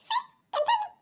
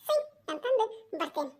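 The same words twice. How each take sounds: First: Put-on very high childish squeak. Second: Put-on softer child voice. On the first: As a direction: squeal it like a small kid. (ಎತ್ತರದ ಮಗುವಿನ ಧ್ವನಿ) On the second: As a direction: settle the kid voice down. (ಮೆದುವಾದ ಮಗುವಿನ ಧ್ವನಿ) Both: Child voice repeating phrase.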